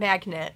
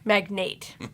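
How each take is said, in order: First: The word sounds like the word magnet. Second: The word sounds like the word magnate. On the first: The speaker calls it wrong. "Not Magnet" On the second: The speaker calls it right.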